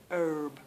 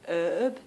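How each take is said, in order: First: Herb with a strong R, "urb"; American herb. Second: Herb with no R sounded, "eb"; British herb. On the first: Contrasting American herb for viewers, R clearly sounded. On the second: Contrasting British herb for American viewers, no R. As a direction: say herb with the R dropped. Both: Shown as a demonstration. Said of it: "see the R, see the difference?".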